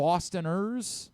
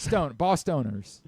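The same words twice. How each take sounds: First: Bostoners with a short, weak "tuh" in the middle; unstressed middle syllable. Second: Bostoners said slowly as boss-STONE-ers; stressed "stone" syllable. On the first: Host trying a name for Boston people, Bostoners as BOS-tuh-ners. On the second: Host correcting the name, Bostoners sounding like "boss stoners". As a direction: draw out "stone" inside Bostoners. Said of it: "they might wanna consider Bostoners". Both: Shown as a demonstration.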